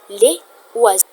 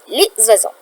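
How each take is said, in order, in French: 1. Les deux mots se disent sans son z de liaison. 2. Les deux mots sont reliés par un son z. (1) "On ne peut pas dire les oiseaux" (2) "on va faire une liaison en disant zoa"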